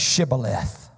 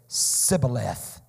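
First: The word begins with an sh sound. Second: The word begins with a plain s sound. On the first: The speaker calls it right. "say Shibboleth" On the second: The speaker calls it wrong. "could not frame his mouth to pronounce it"

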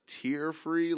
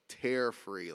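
First: The word 'tear' rhymes with 'ear'. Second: The word 'tear' rhymes with 'air'. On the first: It means free of crying tears. "like tears with your eyes" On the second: It means free of ripping or tugging. "like tearing your hair"

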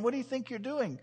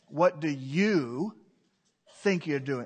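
First: It sounds curious and innocent. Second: It sounds accusing and stern.

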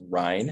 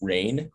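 First: The vowel sounds like the one in wine. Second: The vowel sounds like the one in brain. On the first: The speaker calls it right. "It rhymes with wine" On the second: The speaker calls it wrong. "usually what I get is Rein. People think it's Rein"

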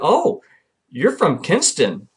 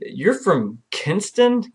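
First: It sounds like an excited exclamation. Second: It sounds like a doubtful question.

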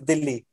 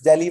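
First: It is said in a Hindi accent. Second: It is said in an English accent.

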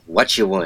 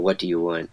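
First: The do is dropped from the phrase. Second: Every word of the phrase is said.

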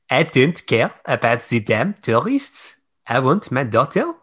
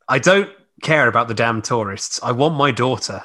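First: It is read in a thick Highland accent. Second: It is read in her ordinary accent.

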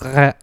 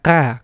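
First: The consonant is softened, almost a fricative. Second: The consonant is softened, almost a fricative.

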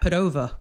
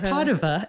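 First: The name is said with an American pronunciation. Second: The name is said with an Italian pronunciation. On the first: "That's the way the Americans say it" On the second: "Padova is the way the Italians say it"

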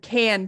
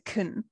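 First: The word is said fully with a clear vowel. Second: The word is unstressed with a weak vowel. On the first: "Goes from can" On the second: "can is often unstressed"

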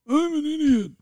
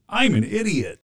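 First: It is said in a put-on, different voice. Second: It is said in his normal voice.

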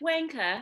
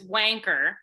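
First: The final R is dropped. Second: The final R is pronounced strongly. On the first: "but you're like wanker" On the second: "you guys don't do the hard R like we do. So it's wanker"

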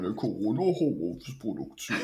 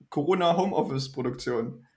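First: It is said in a put-on deep voice. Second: It is said in his normal voice.

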